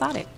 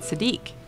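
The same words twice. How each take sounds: First: The name is said the owner's own way. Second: The name is said the usual American way. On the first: This is how this person says his own name. "yours is pronounced" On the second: This is how others with the name say it. "people who have your name here in the United States, they pronounce it"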